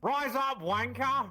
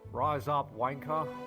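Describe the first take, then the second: First: It is said loudly. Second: It is said at normal, quieter volume.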